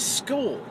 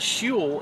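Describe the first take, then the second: First: The word begins with an sk sound. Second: The word begins with an sh sound. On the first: The speaker calls it right. "it's school" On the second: The speaker calls it wrong. "it's spelled like shul. But it's not shul"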